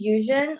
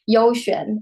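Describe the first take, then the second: First: The word has a Japanese pronunciation. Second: The word has a Chinese pronunciation. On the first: "the Japanese pronunciation of that" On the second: "the Chinese way of saying it"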